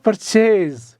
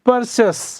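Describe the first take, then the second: First: The word ends with a z sound. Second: The word ends with an s sound. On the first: The speaker calls it wrong. "but it is not purchase" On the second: The speaker calls it right. "There is no z, it is sa sound"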